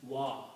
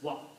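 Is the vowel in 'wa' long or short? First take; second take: long; short. First: The vowel is stretched a little longer. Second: The vowel is said short, not stretched. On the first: "A little bit longer" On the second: "then you don't pronounce any mud. This is just wa"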